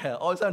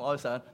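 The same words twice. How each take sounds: First: Said with the tones of the word 'sorrow'. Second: Said with the tones of 'fall in love'. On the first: "哀傷同哀傷唔同聲調" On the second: "哀傷同哀傷唔同聲調"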